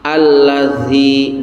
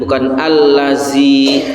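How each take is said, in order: First: The consonant is a soft 'th' sound. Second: The consonant is a plain buzzing 'z' sound. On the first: The speaker calls it right. "menyebut huruf zal" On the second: The speaker calls it wrong. "bukan allazi, itu salah"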